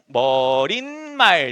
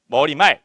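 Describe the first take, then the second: First: An extra n sound is added before mal. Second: No extra n sound is added before mal. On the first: The speaker calls it wrong. "니은이 덧났다" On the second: The speaker calls it right. "이게 표준 발음이에요"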